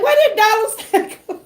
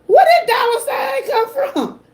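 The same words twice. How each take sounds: First: High and fast, breaking into a laugh; laughing disbelief. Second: Much higher, amazed exclamation with a laugh-cry; stunned disbelief. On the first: Streamer repeats her amazed question to chat, laughing fast. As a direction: rush the question as a giggle breaks through. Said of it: "I'm like". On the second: Streamer retells first seeing the dollar sign, in high amazed disbelief. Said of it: "I said". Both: Retold or imitated.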